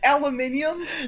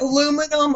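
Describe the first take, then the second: First: It is said as aluminium, with five syllables. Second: It is said as aluminum, with four syllables. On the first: The speaker calls it right. "that's how you pronounce it" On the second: The speaker calls it wrong. "not the first way you said it"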